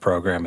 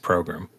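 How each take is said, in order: First: The word has its ordinary, standard pronunciation. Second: The word has an odd, comic pronunciation. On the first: "pronunciation of program" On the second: "the funniest uh, pronunciation of program is program"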